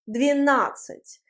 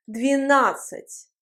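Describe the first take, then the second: First: Двенадцать with the A held longer and a bit stronger; stress on the A. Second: Двенадцать whispered with the stress on the A; whispered stress model. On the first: Teacher to students, modelling the stressed A. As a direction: lean on the A of Двенадцать. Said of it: "plus longue et un peu plus forte". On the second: Teacher to students, whispering the stressed A. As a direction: breathe Двенадцать so the stressed A stands out. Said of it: "Écoutez bien". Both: Shown as a demonstration.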